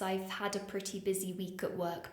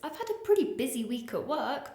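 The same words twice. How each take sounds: First: The voice is flat with little emphasis. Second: The voice is lively with stressed words. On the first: The speaker calls it wrong. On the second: The speaker calls it right.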